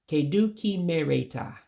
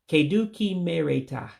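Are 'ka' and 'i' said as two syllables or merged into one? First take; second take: merged; merged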